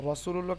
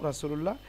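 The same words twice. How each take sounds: First: রসুলুল্লাহ starting with a thick, rounded "raw"; heavy Ra. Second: রাসুলুল্লাহ starting with a light open "raa"; thin Ra. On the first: Teacher asks why it is heavy, রসুলুল্লাহ with rounded Ra. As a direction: open রসুলুল্লাহ on a full dark R. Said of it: "মোটা হয়". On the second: Teacher asks why not this, রাসুলুল্লাহ with thin Ra. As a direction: say রাসুলুল্লাহ with a flat, thin first vowel. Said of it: "কেন নয়". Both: Shown as a demonstration.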